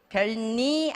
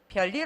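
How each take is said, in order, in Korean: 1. 둘째 음절은 n 소리로 시작해요. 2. 둘째 음절은 l 소리로 시작해요. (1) "별니 아니고" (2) "별일 없어까지 가죠"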